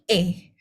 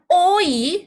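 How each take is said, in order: First: The vowel is a single e-like sound. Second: The vowel glides from o to i. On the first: The speaker calls it right. "tapi E" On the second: The speaker calls it wrong. "Bukan OI"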